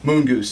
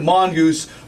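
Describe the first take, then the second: First: The first syllable sounds like 'moon'. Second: The first syllable sounds like 'mon'. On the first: The speaker calls it right. "it's actually Moongoose" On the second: The speaker calls it wrong. "before you mispronounce my name"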